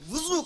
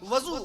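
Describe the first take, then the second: First: The first syllable has a u vowel. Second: The first syllable has an a vowel. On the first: The act of ritual washing. The speaker calls it right. "वाव पे पेश लगाइए, वजू कहा कीजिए" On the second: A vessel that holds water. The speaker calls it wrong. "वजू नहीं, वजू ना कहा कीजिए"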